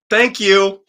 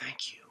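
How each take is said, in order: First: It is said in a big, corny way. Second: It is said quietly with a sigh.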